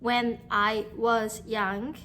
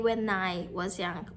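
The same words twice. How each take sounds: First: 'When' and 'I' are said as separate words. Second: 'When' and 'I' run together without a break. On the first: The speaker calls it wrong. "you don't say" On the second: The speaker calls it right. "you say when I was young. When and I are linked"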